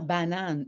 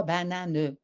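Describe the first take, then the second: First: Said in the usual way. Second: "banane" with the written E heard, ba-na-neu; final E sounded. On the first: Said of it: "il entend banane". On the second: Shown as a demonstration. Teacher showing what a child mishears, "banane" ending in "neu". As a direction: finish "banane" on a separate "neu". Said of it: "et non pas banane".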